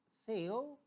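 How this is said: It is said with an American accent. "American will say"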